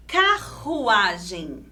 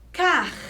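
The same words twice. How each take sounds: First: Said in the usual way. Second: "Carruagem" as CARR, RU, A, GEM with long pauses; syllable by syllable. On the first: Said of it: "temos a palavra". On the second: Shown as a demonstration. Teacher splitting the double R, syllable by syllable. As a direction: rasp the R ending CAR, then separate beats. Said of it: "Vamos separar em sílabas".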